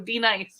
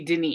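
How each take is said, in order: First: It starts like the letter D, then nice. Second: It starts with a short de sound. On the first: The speaker calls it wrong. "You got D nice in here" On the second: The speaker calls it right. "that was supposed to be Denise"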